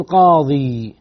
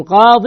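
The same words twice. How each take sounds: First: قاضي drawn out to a long "-ee"; long ya ending. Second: قاض ending in a short "-in"; tanween ending. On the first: Teacher showing what not to say, long ya ending. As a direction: stretch the final ya of قاضي, no n sound. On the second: Teacher showing students the right form, tanween ending. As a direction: say قاض with a nunated "-in", no long ya. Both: Shown as a demonstration. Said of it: "ما تقول قاضي".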